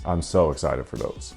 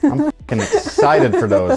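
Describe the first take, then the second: First: It is said flatly with no excitement. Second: It is said with lots of excitement.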